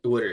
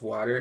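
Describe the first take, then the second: First: It is said with a Delaware regional pronunciation. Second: It is said with a general American pronunciation. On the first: This is how people say it back home. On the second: This is how others expect it to be said.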